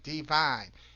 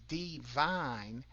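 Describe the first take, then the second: First: The word is said smoothly at normal speed. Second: The word is slowed, with a break before vine. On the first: Things are going well. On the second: A vine grows and connects things.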